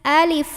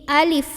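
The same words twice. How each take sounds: First: The word ends with a breathy f sound. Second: The same.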